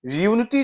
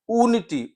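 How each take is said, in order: First: यूनिटी को य जोड़कर यू से; यूनिटी शुरू में य की आवाज़; British unity. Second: ऊनिटी को ऊ से, बिना या के; ऊनिटी शुरू में लंबा ऊ; American unity. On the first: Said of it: "that is a British pronunciation". (British उच्चारण: यूनिटी) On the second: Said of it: "ऊनिटी जो है वो अमेरिकन प्रोनाउंसिएशन है". (अमेरिकी उच्चारण: ऊनिटी) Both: Shown as a demonstration.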